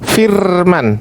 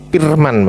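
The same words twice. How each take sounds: First: The word begins with an F sound. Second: The word begins with a P sound. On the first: The speaker calls it right. "Pakai F, Pak" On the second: The speaker calls it wrong. "Jangan pakai P, Pak"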